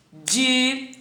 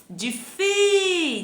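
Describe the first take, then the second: First: DIFÍCIL in separate syllables with long pauses. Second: DIFI with a high, long-held FI; stretched stressed syllable. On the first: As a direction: chop difícil into di, fi, cil. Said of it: "Vamos separá-los". (difícil separado sílaba por sílaba) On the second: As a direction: raise and hold the fi in difi. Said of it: "A sílaba tônica". (difi com o "fi" agudo e bem alongado) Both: Shown as a demonstration.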